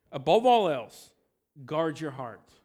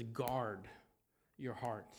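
First: Emphatic preacher's call; loud proclamation. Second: Quiet, weighty reminder; hushed verse. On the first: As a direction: ring out Above all else, then guard your heart. Preacher proclaims the key verse. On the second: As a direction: lower and much softer Guard your heart. Preacher repeats verse, hushed and low. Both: Acted.

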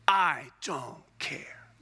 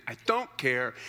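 First: Slow whisper of a shrugging reader; whispered dismissal. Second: Said in the usual way. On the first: Acted. Preacher to the church, shrugging off tabernacle details in a slow whisper. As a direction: breathe it out slowly, unbothered.

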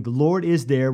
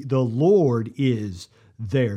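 First: Said in the usual way. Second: The Lord is there drawn out slowly, each word weighted; slow, reverent naming of the city; slow solemn name. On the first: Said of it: "So the city coming". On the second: Shown as a demonstration. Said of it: "name of this city will be".

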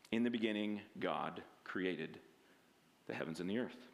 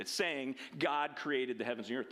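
First: Solemn scripture reading. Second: Said in the usual way. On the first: Shown as a demonstration. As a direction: read the verse like holy writ, hushed and deep.

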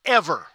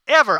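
First: Said in the usual way. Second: Ever said again, louder and higher than the first; emphatic repeat of ever. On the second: Shown as a demonstration. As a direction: hit Ever hard the second time. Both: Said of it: "no harmful word should ever come out".

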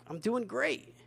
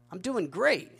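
First: Mock-proud, much higher voice; smug boast. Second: Mock-proud, higher voice; smug boast. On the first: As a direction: brag smugly about status. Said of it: "We have social pride". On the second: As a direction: brag like a smug retiree. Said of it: "We have economic pride".

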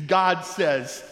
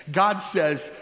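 The two takes are said the same way.

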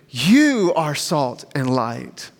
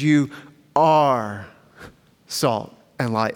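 First: YOU stretched and punched, then the rest falls away; slow line with heavy stress on YOU; emphatic YOU. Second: ARE held long, pauses either side; drawn-out ARE, then "salt and light" drops lower; stress on ARE. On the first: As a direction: hit YOU hard, slowly. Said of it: "But it's also emphatic, meaning you". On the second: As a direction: set ARE apart, slow and weighty. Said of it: "second part of this that's so very important". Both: Shown as a demonstration.

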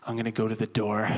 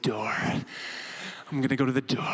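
First: Said in the usual way. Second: "Door" clipped to "doh", the r dropped; odd "door". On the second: Retold or imitated. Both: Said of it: "he didn't say door normally".

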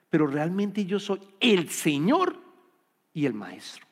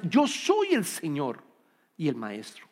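First: Said in the usual way. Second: "Yo soy el Señor" slow, with weight on "soy"; giving it importance. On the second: Shown as a demonstration. Preacher voicing Jesus claiming lordship, slow and weighty. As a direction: lean slowly into "soy" in "Yo soy el Señor". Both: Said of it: "Quiere darle importancia".

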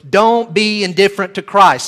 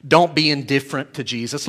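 First: Louder, higher, pressing hard on "Don't be indifferent"; emphatic plea. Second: Said in the usual way. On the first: Real, not acted. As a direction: drive home "Don't be indifferent to Christ" forcefully. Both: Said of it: "Don't just let that be words".

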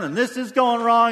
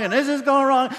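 First: Higher and louder whiny grumble; mock complaining. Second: Even higher, louder exasperated whine on going wrong; escalating mock complaint. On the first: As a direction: play the fed-up complainer. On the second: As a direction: push the grumbling one notch further. Complaint builds on repeat.

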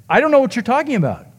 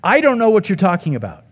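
First: Higher and fast, a sharp retort; imitating Peter snapping back, much higher and fast; snapped denial. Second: Mild snap. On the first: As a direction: rattle it off high and quick like a cornered man snapping. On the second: Retold or imitated. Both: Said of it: "Luke says that Peter snapped".

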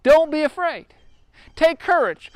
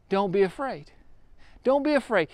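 First: Higher, bold call of comfort; Jesus reassuring. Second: Soft, private self-reassurance; softly to yourself. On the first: Retold or imitated. Preacher voicing Jesus to the frightened disciples, raised and reassuring. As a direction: lift the voice to reassure scared men. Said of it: "He says". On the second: Shown as a demonstration. Someone in trouble quietly repeating comfort to themselves, soft. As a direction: murmur it as if to yourself. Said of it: "You keep on saying that over to yourself".

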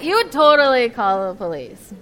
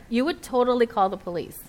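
First: Louder, punching "would" and the whole line; stress on would. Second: Said in the usual way. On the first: Shown as a demonstration. To the congregation, insisting: "would" hit hard and loud. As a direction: drive the point home, "You would totally call the police" said loud.

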